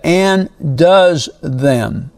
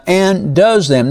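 First: AND DOES THEM, very slow, word by word; emphatic repeat. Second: Said in the usual way. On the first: Retold or imitated. Preacher telling the congregation to notice the phrase, slow and emphatic. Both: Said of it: "notice that".

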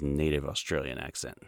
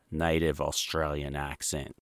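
First: Said in the usual way. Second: Slow imitated Australian accent. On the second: Host mimicking debater Ken Ham, mock Australian accent. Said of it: "in his native Australian accent".

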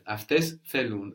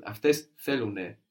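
First: "θέλουν" ending cleanly on -ουν; short form θέλουν. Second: "θέλουνε" with an extra -ε at the end; long form θέλουνε. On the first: Teacher giving the short form of "they want": θέλουν. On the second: Teacher giving the long form of "they want": θέλουνε. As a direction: add the -ε to make "θέλουνε". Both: Shown as a demonstration. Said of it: "we have a variation on the they form".

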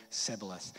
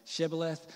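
First: "Sibboleth" opening on s; "Sibboleth" with s replacing sh. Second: "Shibboleth" opening on sh; "Shibboleth" with sh rather than s; sh sound. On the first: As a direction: pronounce Shibboleth as "Sibboleth". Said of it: "they say Sibboleth". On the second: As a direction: pronounce "Shibboleth" with sh at the start. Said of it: "couldn't say Shibboleth". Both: Shown as a demonstration.

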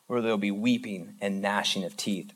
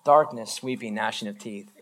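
First: Said in the usual way. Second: A burst on darkness, then dropping to a hushed horror; stunned crowd repeating the threat in mock horror; horrified listener. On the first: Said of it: "he says". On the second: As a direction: spell out each dread word, appalled. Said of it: "And everybody listening goes".

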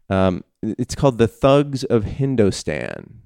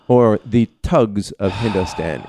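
First: Said in the usual way. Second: Thugs of Hindostan in a Hindi accent. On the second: Shown as a demonstration. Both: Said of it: "with a Hindi accent".

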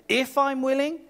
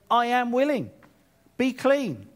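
First: High, disbelieving question on IF I'M WILLING; indignant. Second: I AM WILLING as a high, falling declaration; firm statement without the if. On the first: Jesus repeating the man's doubt, indignant. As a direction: throw IF back, affronted and high. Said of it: "That's why Jesus was indignant". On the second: Jesus answering the doubt, firmly declaring I AM WILLING. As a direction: say I AM WILLING as settled fact, then pause. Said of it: "Jesus removed the if and said". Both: Acted.

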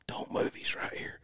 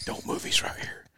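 First: Urgent hushed warning; whispering. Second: Sharper urgent whisper. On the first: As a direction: breathe it so the elk won't hear. Whispering to partner near elk. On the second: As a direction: hiss it a little harder. Repeated whisper to partner. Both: Retold or imitated.

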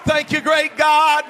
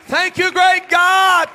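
First: Slightly eased, still-shouted echo; settling shout of praise. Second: Drawn-out, shouted thanks at the peak; slow roaring praise. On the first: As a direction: let the second "great God" come down a notch. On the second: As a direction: stretch out "great God" at full shout. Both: Acted. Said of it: "repeats the line twice".

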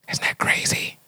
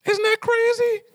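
First: Hushed whisper of disbelief. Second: Much higher, squealed disbelief; incredulous. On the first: Preacher to the kids about the mother's scheme, hushed whisper. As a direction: lean in and whisper it like a secret. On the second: Preacher to the kids about the stew trade, high squealed disbelief. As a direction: squeal it in mock shock. Preacher reacts to Jacob's bargain. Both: Real, not acted.

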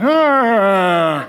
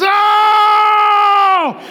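First: Low, long "Oh" sliding downward; mock a joyless reading with a drooping "Oh"; unimpressed atheist "Oh". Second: High, long, sustained shouted "Oh"; exuberant believer's "Oh". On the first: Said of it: "That's how atheists read Romans eleven". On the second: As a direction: belt out the exclamation in awe. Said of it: "We read it like this". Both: Shown as a demonstration.

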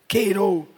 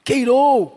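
First: Keiro said plainly; Greek word keiro. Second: Loud keiro. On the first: Pastor repeating the Greek word keiro, calm. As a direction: say keiro once, calmly. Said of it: "eu estou feliz". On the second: Pastor leading the congregation to call out keiro loudly. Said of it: "Fala pra pessoa do seu lado aí". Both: Shown as a demonstration.

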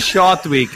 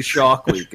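First: "short" said as "shart", with a T; pronounced "shart". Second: Said in the usual way. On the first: Shown as a demonstration. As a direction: say "short" as "shart" before "week". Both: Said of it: "corrected to Shark Week, and it's not the same".

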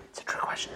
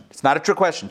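First: Mock-secret whispered aside; joking whisper. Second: Said in the usual way. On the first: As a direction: whisper it like a conspiratorial joke. Teacher jokes with class.

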